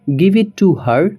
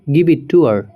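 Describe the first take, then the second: First: 'Her' is said in full with its h sound. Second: 'Her' is reduced to a short 'er' sound. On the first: The speaker calls it wrong. "हर आपको नहीं बोलना है" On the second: The speaker calls it right. "लेकिन हमारा जो native तरीका है"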